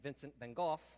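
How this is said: The name is said the English way.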